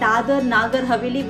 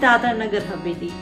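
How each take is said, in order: First: The first word lacks a final vowel; 'Nagar' is lengthened. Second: The first word ends in a vowel; 'Nagar' stays short. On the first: The speaker calls it wrong. "Which is so wrong" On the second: The speaker calls it right. "It is"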